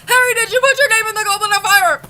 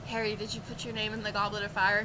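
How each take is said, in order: First: The question is asked agitatedly. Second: The question is asked calmly.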